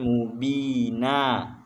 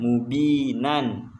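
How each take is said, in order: First: The word ends on a plain a vowel. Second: The word ends with an -an nasal ending. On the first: The reader stops at this word. The speaker calls it right. "Kalau kalau berhenti maka dibaca mubina" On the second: The reader continues past this word. The speaker calls it wrong. "bukan mubinan"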